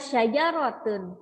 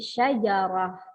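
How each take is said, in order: First: The word ends with a full '-tun' ending. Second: The word ends with a soft 'h' sound. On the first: The word is read joined to what follows. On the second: The reader stops on the word.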